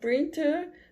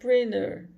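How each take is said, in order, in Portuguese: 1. O T depois do N é claramente pronunciado. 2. O T depois do N é omitido. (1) "ao invés de falar printer" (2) "você vai falar printer"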